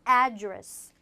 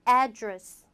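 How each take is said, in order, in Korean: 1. 강세는 첫 번째 음절에 있어요. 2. 강세는 첫 번째 음절에 있어요.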